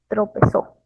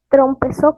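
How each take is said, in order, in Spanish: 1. No hay un sonido m antes de la p. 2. Hay un sonido m antes de la p.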